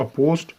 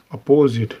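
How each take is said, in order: First: अपोज्ड said with a clipped final "sd", no vowel after the s; clear ending sound. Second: अपोजिट said with a clear "i" vowel before the final t; clear vowel sound. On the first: shorthand teacher छात्रों को अपोज्ड का अंत "ज़्ड" साफ़ बोलकर दिखाता है. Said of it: "अपोज्ड में हमारा एसडी की sound". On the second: shorthand teacher छात्रों को अपोजिट में "इट" की आवाज़ साफ़ बोलकर दिखाता है. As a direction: stress the "zit" in अपोजिट, vowel fully voiced. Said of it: "अपोजिट में हमारी एसआईटी". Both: Shown as a demonstration.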